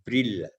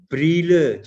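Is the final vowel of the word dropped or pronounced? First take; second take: dropped; pronounced. First: The final e vowel is dropped entirely. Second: The final e vowel is clearly pronounced. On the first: The speaker calls it wrong. "jangan di Brille" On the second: The speaker calls it right. "ada vokal E-nya itu dikeluarkan ya"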